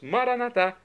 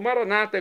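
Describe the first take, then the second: First: The stress is on the last syllable. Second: The stress is on the second-to-last syllable. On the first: This is how Catholics say it. "como dizemos nós católicos" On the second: This is how Evangelicals and Protestants say it. "como dizem os nossos irmãos das comunidades evangélicas ou protestantes"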